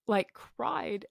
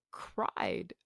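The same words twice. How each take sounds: First: Said in the usual way. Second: Cried breathed out in a whisper. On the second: Real, not acted. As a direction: let cried fall away to a whisper.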